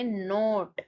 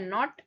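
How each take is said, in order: First: नोट with a long closed o. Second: नॉट with a short open o. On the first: Teacher reads the word pair aloud so students hear the long vowel. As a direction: say नोट long and round, like "note". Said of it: "इसको पढ़ेंगे नोट". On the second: Teacher reads the word pair aloud so students hear the short vowel. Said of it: "इसको पढ़ते हैं नॉट". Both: Shown as a demonstration.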